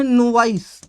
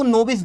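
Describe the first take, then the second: First: नोवाइस ending in "-vice", rhyming with nice; long-vowel reading. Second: नोविस with a short i, "no-vis"; alternative reading. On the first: Teacher introducing a word to pupils, नोवाइस said "no-vice". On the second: Teacher noting how some people read it, नोविस as "no-vis". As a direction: end नोविस in "-vis", not "-vice". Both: Shown as a demonstration. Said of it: "कुछ लोग इसको नोविस भी".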